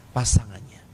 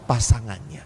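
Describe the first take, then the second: First: "pasangannya" with a falling, settled end; firm answer. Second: "Pasangannya" with a rising, questioning end. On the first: ("pasangannya" diucapkan dengan nada turun yang tegas) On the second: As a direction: ask "Pasangannya" back to the audience, rising. ("Pasangannya" diucapkan dengan nada naik seperti bertanya) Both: Shown as a demonstration. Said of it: "Mereka hanya memikirkan siapa?".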